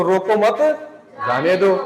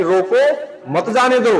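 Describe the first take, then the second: First: "रोको मत" rising, pause, then "जाने दो"; pause after मत. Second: "रोको", short pause, then "मत जाने दो" joined; pause after रोको. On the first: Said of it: "यही कोमा अगर हम यहाँ लगा देते हैं". ("रोको मत" एक साथ, विराम, फिर "जाने दो") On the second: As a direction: break right after "रोको", keeping "मत" with "जाने दो". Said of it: "तो सेंटेंस का भाव क्या हुआ है". ("रोको" पर विराम, फिर "मत जाने दो" एक साथ) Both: Shown as a demonstration.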